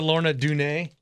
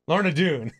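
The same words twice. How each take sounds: First: "Doone" said as "doo-nay", two syllables; "Lorna Doone" with Doone as "doo-nay"; wrong pronunciation. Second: "Doone" said as one syllable "doon"; "Lorna Doone" with Doone rhyming with moon; corrected pronunciation. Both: Real, not acted. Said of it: "I've been pronouncing a lot of these wrong".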